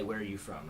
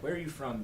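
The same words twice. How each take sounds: First: It is asked in a plain, neutral way. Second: It is asked with strong emotional engagement.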